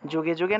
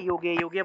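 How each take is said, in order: First: The words begin with a 'j' sound. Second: The words begin with a 'y' sound. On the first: The speaker calls it wrong. "যুগে যুগে না বলে" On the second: The speaker calls it right. "যুগে যুগে বলতে হয়"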